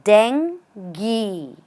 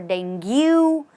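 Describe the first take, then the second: First: The final U is not sounded. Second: The final U is sounded as a vowel. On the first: The speaker calls it right. "the right pronunciation is dengue" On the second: The speaker calls it wrong. "Just because of the U over here, people usually say dengue"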